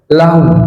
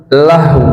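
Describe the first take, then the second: The two takes are said the same way.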